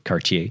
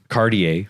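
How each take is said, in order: First: It is said with a Dutch pronunciation. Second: It is said with an American pronunciation. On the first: "I say it in a very Dutch way" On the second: "what our American audience might say"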